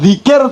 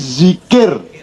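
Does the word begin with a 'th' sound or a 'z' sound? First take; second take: th; z. First: It begins with a voiced 'th' sound, as in 'there'. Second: It begins with a plain 'z' sound. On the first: It means remembering God. The speaker calls it right. "zikir itu D gabung Z" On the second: It refers to the genitals. The speaker calls it wrong. "ditulis dengan zikir Z, maka dia bukan za tapi za"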